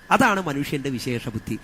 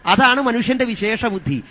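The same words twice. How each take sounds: First: Said in the usual way. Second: അതാണ് punched higher and louder, the whole line proclaimed; loud proclaiming stress on അതാണ്; emphatic declaration. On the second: Acted. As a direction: hit അതാണ് hard, higher and louder, as the big reveal. Preacher stresses key answer.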